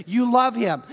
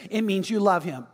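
First: "You love him" lifted and driven home; emphatic restatement. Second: Said in the usual way. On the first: Real, not acted. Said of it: "But catch it".

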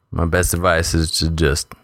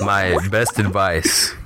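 First: Said in the usual way. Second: Slow, gas-deepened voice; heavy gas voice. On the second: Real, not acted. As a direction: talk slowly through the heavy gas. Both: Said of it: "so you sound really deep".

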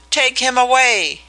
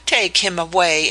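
First: High, loud panicked cry to send him away; shrieking in horror; terrified shriek. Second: Mock his panic dismissively; scornful repeat of his cry; scoffing echo. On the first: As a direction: scream it out in terror at a ghost. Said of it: "he shrieked". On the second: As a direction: throw his words back with scorn. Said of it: "scoffed at him". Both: A narrator's reading.

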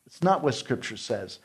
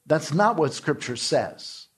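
First: Said in the usual way. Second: "not" leaned on hard, the whole line said slowly; slow and firm, hitting "not"; stress on not. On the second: Shown as a demonstration. Preacher rebuking the divorce advice, slowly stressing "not".

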